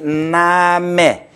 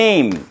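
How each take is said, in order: First: It is said 'nah-meh', two syllables as spelled. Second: It is said like English 'naym', one syllable. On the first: "고지고대로 다 같이 나메 이와 같이 스페인어가 발음이" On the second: "이와 같이 영어 형태의 name 발음이 되겠죠"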